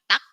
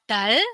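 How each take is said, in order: First: The word ends with a k sound. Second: The word ends with an l sound. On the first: The speaker calls it right. "tapi dibacanya tak" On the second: The speaker calls it wrong. "bukan dibaca dal"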